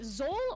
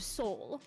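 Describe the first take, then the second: First: The name begins with a Z sound. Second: The name begins with an S sound.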